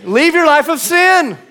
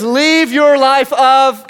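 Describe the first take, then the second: First: Higher and louder, ringing out; soaring preached command. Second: Slow, loud, raised command; firm slow command. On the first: Preacher rallying church with Jesus' words, ringing command. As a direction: let it ring to the whole church. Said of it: "come on, church". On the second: Preacher quoting Jesus to the church, firm slow command. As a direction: lay the words down slowly. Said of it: "He says". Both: Acted.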